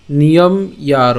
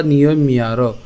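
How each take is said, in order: First: Slow niyom, then separate yaro; niyom-yaro split after m. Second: Niyom linked into miyaro; niyom-miyaro with m carried over. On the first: Teacher reads the broken-up verse, niyom-yaro split. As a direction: close "niyom" on m before yaro. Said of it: "ভাঙা অংশটি একটু খেয়াল করুন". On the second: Teacher offers the alternative, niyom-miyaro linked. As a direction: double the m between niyom and yaro. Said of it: "অথবা". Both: Shown as a demonstration.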